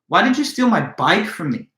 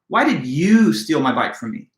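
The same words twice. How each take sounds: First: The word "bike" carries the main stress. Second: The word "you" carries the main stress. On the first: Of all things, this prized possession was taken. "Now I'm placing all the emphasis on the word bike" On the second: Someone else might be expected to do it, not this person. "Now the accent or emphasis is placed on the word you"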